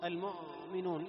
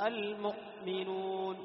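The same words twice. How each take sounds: First: Slow المؤمنون with the hamza left to run on; don't cut the sound at ؤ in المؤمنون; wrongly stretched hamza. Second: Slow المؤمنون with a brief, complete stop at the hamza; hamza cut short. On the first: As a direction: say المؤمنون as a smeared "al-mu'uu-minun". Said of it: "لا". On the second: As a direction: say المؤمنون as "al-mu'. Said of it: "ينقطع الصوت". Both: Shown as a demonstration.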